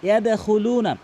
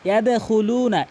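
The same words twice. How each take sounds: Both takes have the same delivery.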